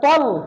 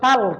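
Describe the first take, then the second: First: The vowel is heavy and thick. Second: The vowel is light and open. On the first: The speaker calls it right. "মোটা হবে তল" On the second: The speaker calls it wrong. "এটা যদি আমি বলি তাল তাহলে হবে না, ভুল।"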